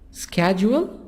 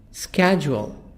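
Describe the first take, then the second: First: It is said with an American accent. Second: The same.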